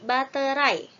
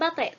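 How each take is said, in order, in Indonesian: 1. Kata ini diucapkan sesuai lafal baku dalam kamus. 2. Kata ini diucapkan sesuai ragam percakapan sehari-hari. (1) "tapi baterai" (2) "diucapkannya bukan baterai"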